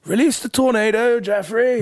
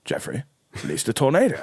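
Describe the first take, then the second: First: Very high, loud God voice; gleeful command. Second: Calm pause, then press the order; insistent repeat. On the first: God orders Jeffrey to wreck the city, gleeful. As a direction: cry out the order with relish. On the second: God overrules Jeffrey's objection, insistent. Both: Retold or imitated.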